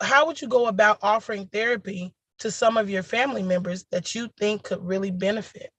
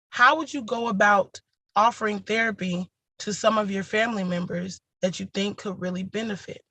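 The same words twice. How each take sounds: First: It is read at a faster pace. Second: It is read at a slower pace.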